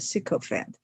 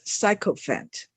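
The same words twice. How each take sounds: First: It is pronounced the way the dictionary gives. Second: It is pronounced following the spelling rules. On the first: The speaker calls it right. "the dictionary says it should be pronounced a sycophant" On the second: The speaker calls it wrong. "That is by the pronunciation rules"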